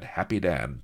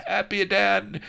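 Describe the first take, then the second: First: Said in the usual way. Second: Very high, loud French cry of "Happy Dan"; hammed-up French pirate naming himself; French accent cry. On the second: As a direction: trumpet "Happy Dan" like a ham hero.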